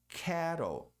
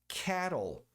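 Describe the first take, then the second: No difference in how they are said.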